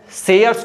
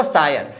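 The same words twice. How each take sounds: First: "सेयर्स" with an E vowel and final S; "सेयर्स", first syllable SE, S at the end; original name form. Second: "सायर" with a long AA, no final S; altered mnemonic reading. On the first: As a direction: say "सेयर्स" as se-yars. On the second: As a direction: say "सायर" as saa-yar. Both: Shown as a demonstration. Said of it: "सेयर्स को पढ़ना है आपको".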